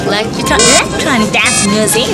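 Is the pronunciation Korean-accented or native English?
Korean-accented. It is said with a strong Korean accent. The speaker calls it wrong. "이렇게 하면은 엠버 언니한테 되게 혼나거든요"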